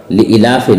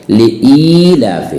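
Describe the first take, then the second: First: लिईलाफि with a short second i; wrong short vowel. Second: लिईलाफि with a long, held "ee"; correct long vowel. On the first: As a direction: skip the length of "ee" in लिईलाफि. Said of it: "नहीं है कुरान में". (लिईलाफि में ई छोटी, ग़लत) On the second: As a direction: draw out the second vowel of लिईलाफि. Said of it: "Hamza या जेर ई है". (लिईलाफि में ई खींचकर) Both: Shown as a demonstration.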